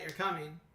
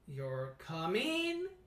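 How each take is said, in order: First: The voice falls at the end. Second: The voice rises at the end. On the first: It is stated as a fact. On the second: It is asked as a question. "a rising intonation at the end of a sentence makes it sound like a question"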